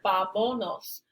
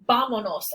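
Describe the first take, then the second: First: The stress is on the second syllable. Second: The stress is on the first syllable. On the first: The speaker calls it wrong. "Without the accent, this word would be pronounced "vamonos," with stress of the voice here" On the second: The speaker calls it right. "It's pronounced "vamonos," and that's why the accent is here"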